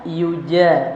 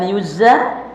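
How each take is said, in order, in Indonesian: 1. Konsonan di tengah adalah j yang bersih. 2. Konsonan di tengah terdengar seperti z. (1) "ja itu jim itu bersih bacanya" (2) "Bukan yuza"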